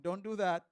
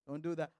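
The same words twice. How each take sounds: First: Louder, stern "Don't do that"; sharp rebuke to a rude listener; firm scolding. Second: Said in the usual way. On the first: Shown as a demonstration. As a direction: scold them firmly.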